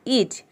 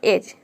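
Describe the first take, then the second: First: The first vowel is a long ee sound. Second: The first vowel is a short e sound. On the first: It sounds like a word that does not exist. The speaker calls it wrong. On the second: It sounds like a real word. The speaker calls it right.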